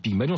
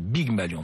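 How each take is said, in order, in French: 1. Le nom commence par un son P. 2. Le nom commence par un son B. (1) "je la prononce toujours très mal. Je dis Pygmalion" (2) "c'est Pygmalion. ... Big ... Malion"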